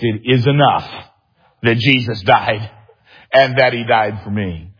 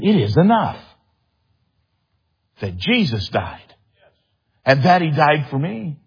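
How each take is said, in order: First: It is shouted at full volume. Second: It is said with a tone of amazement. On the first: "shouting at the top of her lungs" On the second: "with amazement in her voice"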